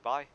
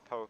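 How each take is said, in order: First: The name starts with a b sound. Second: The name starts with a p sound. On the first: The speaker calls it wrong. "it looked to be pronounced as Bai" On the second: The speaker calls it right. "Po is the right pronunciation"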